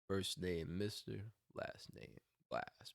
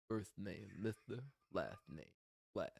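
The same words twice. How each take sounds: First: The s-sounds are pronounced clearly, without a lisp. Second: The s-sounds are pronounced with a lisp. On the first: "normally, like he'd probably say like this" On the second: "But I did it like this"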